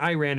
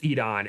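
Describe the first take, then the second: First: "Iran" as "eye-RAN"; wrong pronunciation. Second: "Iran" as "ee-RAHN"; corrected pronunciation. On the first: Showing teacher's rejected version, "Iran" as "eye-RAN". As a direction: open "Iran" with an "eye" sound. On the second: Showing teacher's correction, "Iran" as "ee-RAHN". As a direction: open "Iran" with "ee", long "ah" after. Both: Shown as a demonstration. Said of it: "not Iran, it's Iran".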